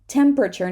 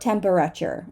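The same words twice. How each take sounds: First: One syllable of the word is dropped. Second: Every syllable of the word is pronounced. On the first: The speaker calls it right. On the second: The speaker calls it wrong.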